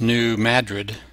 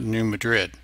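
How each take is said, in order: First: Madrid is said the local American way. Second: Madrid is said the way Spain says it. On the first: The speaker calls it right. "So it's New Madrid" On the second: The speaker calls it wrong. "not New Madrid"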